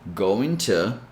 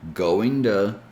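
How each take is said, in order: First: The t in 'to' is a clear t. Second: The t in 'to' sounds like a d. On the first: "you can still pronounce this with the T sound" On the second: "the T sound changes to a D sound"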